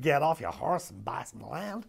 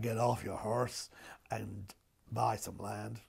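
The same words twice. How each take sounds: First: It is said in the speaker's ordinary accent. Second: It is said in an imitated drawling cowboy accent.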